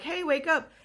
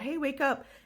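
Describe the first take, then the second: First: It is said forcefully and loudly. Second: It is said gently and softly.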